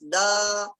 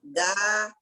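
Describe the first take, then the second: First: The sound is directed upward, heavier. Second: The sound is directed downward, lighter. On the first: "kita arahkan ke atas" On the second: "arahkan ke bawah"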